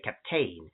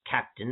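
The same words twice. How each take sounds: First: It is pronounced an older, French-influenced way. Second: It is pronounced the ordinary modern English way. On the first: "pronouncing words in a historical way. A lot of it is more influenced by French" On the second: "instead of"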